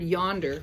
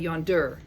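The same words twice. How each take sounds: First: The stress is on the first syllable. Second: The stress is on the second syllable. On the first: The speaker calls it right. "the yon part of yonder is the accented part" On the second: The speaker calls it wrong. "we don't say yonder"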